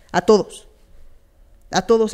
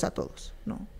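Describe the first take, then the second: First: A todos punched out loud and firm; a todos, declared loudly to the whole room; emphatic. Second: A todos dropped to a breathy whisper; a todos, whispered as an afterthought. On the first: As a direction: hit a todos hard and loud. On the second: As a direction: let a todos fall to a whisper. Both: Real, not acted. Repeats "a todos" louder then whispered.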